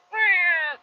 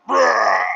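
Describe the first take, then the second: First: High, small cub roar; Simba. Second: Big, loud, rolling roar; Simba. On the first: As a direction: attempt a roar and let out a feeble squeal. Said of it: "whenever Simba's like". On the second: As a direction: imitate a full lion roar. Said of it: "he tries it again". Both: Retold or imitated.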